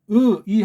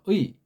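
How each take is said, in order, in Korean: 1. 이 모음은 두 개의 따로 나뉜 소리로 발음해요. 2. 이 모음은 하나의 단일한 소리로 발음해요. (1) "두 개의 음이니까 틀린 발음이에요" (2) "이게 단음이에요"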